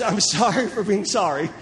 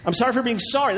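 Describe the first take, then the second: First: Breaks into a laugh mid-line; laughing at the formula. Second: Said in the usual way. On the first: Retold or imitated. Preacher repeats the formula laughing at its absurdity. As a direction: chuckle through the absurd phrase.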